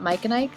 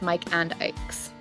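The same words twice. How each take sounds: First: The word 'and' is reduced to a quick 'n'. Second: The word 'and' is said fully and clearly. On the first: This is how people remember hearing it. The speaker calls it wrong. "people say "n" instead of "and."" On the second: This is the actual name. The speaker calls it right. "it's Mike and Ike's"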